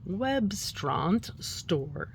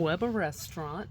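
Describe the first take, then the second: First: The name is blended into 'Webstaurant Store'. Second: The name is split into 'Weber Restaurant'. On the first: The speaker calls it right. "but it's Webstront Store" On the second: The speaker calls it wrong. "I probably just totally said that wrong"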